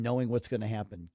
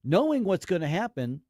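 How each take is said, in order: First: Said in the usual way. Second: "Knowing what's gonna happen" pushed higher, starting loud; emphasis on the phrase. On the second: Real, not acted. Host asking people to focus on that part, pointed emphasis. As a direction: land hard on "Knowing", then step down through "what's gonna happen". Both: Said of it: "focus on that part".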